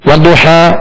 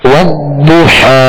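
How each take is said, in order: First: The doubled consonant is said short, not held. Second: The doubled consonant is held and pronounced twice. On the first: The speaker calls it wrong. "ये तशदीद सही अदा नहीं हुई" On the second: The speaker calls it right. "दोहरा पढ़ें दो मर्तबा"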